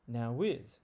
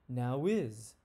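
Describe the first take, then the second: First: A W sound links the two words together. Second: A W sound links the two words together.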